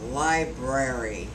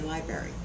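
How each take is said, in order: First: An r sound follows the b. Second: No r sound follows the b. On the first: The speaker calls it right. "There is another R in the word library" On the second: The speaker calls it wrong. "People don't say that. They say library"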